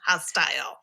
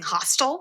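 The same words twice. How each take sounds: First: The word is enunciated clearly as hostile. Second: The word is blurred to sound like hostel. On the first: The speaker calls it right. "I had to enunciate that" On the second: The speaker calls it wrong. "it sounded like I was saying hostile"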